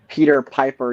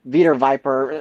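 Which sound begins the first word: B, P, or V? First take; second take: P; V. First: The first word begins with a P sound. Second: The first word begins with a V sound. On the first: "if you said uh" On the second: "It's like some like letter substitution"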